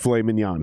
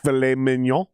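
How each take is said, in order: First: The final N sound of mignon is pronounced. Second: The final N sound of mignon is silent. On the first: The speaker calls it wrong. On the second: The speaker calls it right. "you can't pronounce the second N"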